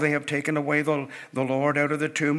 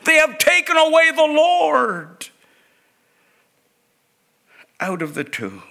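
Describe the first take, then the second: First: It is said in a calm, flat voice. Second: It is said in a panicked, urgent voice. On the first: It is just words being read. The speaker calls it wrong. "We often read these things, you know" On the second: The speaker is desperate and frightened. The speaker calls it right. "Her voice is filled with panic as she cries out"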